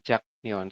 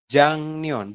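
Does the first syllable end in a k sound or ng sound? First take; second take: k sound; ng sound. First: The first syllable ends in a k sound. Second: The first syllable ends in an ng sound. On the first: The speaker calls it wrong. "bukan jakneon" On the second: The speaker calls it right. "Jadi dibacanya adalah jangneon"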